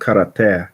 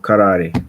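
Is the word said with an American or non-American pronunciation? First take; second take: non-American; American. First: The word has a non-American pronunciation. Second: The word has an American pronunciation.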